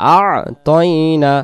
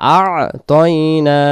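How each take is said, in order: No difference in how they are said.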